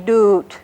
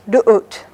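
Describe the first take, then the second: First: The vowel flows smoothly without interruption. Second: A glottal catch interrupts the middle vowel. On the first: "very smooth" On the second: "you have that little interruption in the middle"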